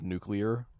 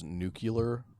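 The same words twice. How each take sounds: First: It is said as standard nuclear. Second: It is said as nucular, like Bush. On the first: This is the usual way to say it. The speaker calls it right. "instead of nuclear" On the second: This is how the character and Bush say it. The speaker calls it wrong. "he just says nuclear ... like George W. Bush"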